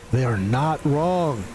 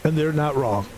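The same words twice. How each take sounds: First: Slow, each word of "They are not wrong" weighted; slowed, deliberate concession; slow emphatic. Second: Said in the usual way. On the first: Shown as a demonstration. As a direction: drag out "not" for mock gravity.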